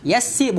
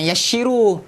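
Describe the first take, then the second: First: The middle consonant is a plain s sound. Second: The middle consonant is an sh sound. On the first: The speaker calls it right. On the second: The speaker calls it wrong. "bukan yassiru. ... huruf S semua antum kasih jadi apa namanya? Shin"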